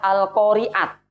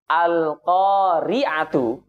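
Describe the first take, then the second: First: The word ends with a bare t sound. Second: The word ends with a t and a u vowel.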